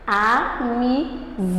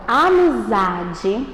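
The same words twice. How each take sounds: First: "Amizar" slowly split as a, mi, za; syllable by syllable. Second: Said in the usual way. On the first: Shown as a demonstration. Teacher showing the stressed syllable of amizade, slow split syllables. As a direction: draw out "Amizar" in separate beats, landing on za. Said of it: "a separação silábica dela". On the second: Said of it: "eu coloquei a palavra amizade".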